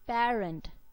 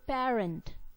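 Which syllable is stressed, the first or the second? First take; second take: first; first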